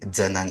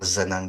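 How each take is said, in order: First: The name begins with a sound other than z. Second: The name begins with a plain z sound. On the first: This is how the speaker's own dialect says it. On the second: This is how some other sub-dialects say it.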